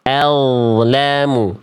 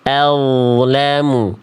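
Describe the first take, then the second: Both takes have the same delivery.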